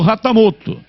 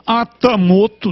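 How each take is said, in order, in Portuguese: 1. O nome começa com som de R. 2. O nome começa com som de vogal. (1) "H com som de R" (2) "Uns falam Atamoto"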